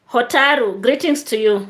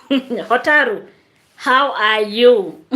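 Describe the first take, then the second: First: Said in the usual way. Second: Slow, drawn-out greeting through laughter; chuckling slowly through the name; laughing. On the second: Real, not acted. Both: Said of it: "I'm laughing because there is a comment".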